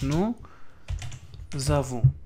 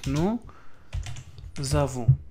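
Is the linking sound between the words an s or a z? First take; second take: z; z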